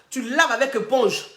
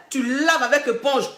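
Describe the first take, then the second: No difference in how they are said.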